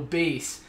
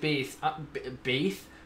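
First: The final s sound is clear. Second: The final s sound is lisped. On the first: The speaker calls it right. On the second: The speaker calls it wrong. "A little bit of a lisp there"

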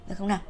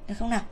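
No difference in how they are said.

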